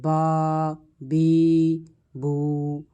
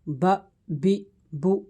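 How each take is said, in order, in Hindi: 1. स्वर लंबे खींचे जाते हैं। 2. स्वर छोटे और झटके से कटे हुए होते हैं। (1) "ये खींचना हो जाएगा" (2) "ये झटका हो जाएगा, ऐसे नहीं पढ़ेंगे"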